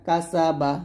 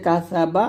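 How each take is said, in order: First: কাসা বা with sharp S; whistling sin. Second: কাসা বা with TH for the S; tongue to upper teeth tips in কাসা; lisped tha. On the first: Teacher showing tongue position, কাসা বা with sharp S. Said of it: "জিহ্বাটা নিচের দাঁতের মাঝখানে". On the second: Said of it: "জিহ্বাটা উপরের দাঁতের আগে লাগাবেন". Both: Shown as a demonstration.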